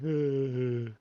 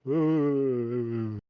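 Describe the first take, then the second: First: Cold, chattering teeth; shivering. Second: Teeth chattering from cold; shivering. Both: Shown as a demonstration. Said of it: "like I'm really cold, like, my teeth are chattering".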